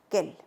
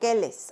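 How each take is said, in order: First: The word ends plainly in an l sound. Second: The word ends with an extra sounded ending. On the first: The speaker calls it right. "no, quel" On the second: The speaker calls it wrong. "no digo quelles o quels"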